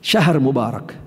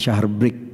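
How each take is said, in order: First: The second word is said in full, three syllables. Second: The second word is clipped to one syllable. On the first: The speaker calls it right. "syahrun mubarak masih boleh" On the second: The speaker calls it wrong. "Tapi bukan syahr break"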